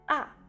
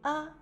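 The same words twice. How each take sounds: First: The pitch falls quickly from high to low. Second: It is said lightly and briefly, without stress. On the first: "A au quatrième ton, le son descend rapidement" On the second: "A au cinquième ton, il prononce légèrement et court"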